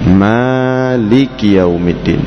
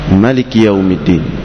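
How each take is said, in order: First: The first vowel of Maliki is long. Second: The first vowel of Maliki is short. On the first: "kita membaca dengan mat atau alif mim" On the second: "dibaca dengan tanpa alif, jadi langsung saja mimnya tanpa alif"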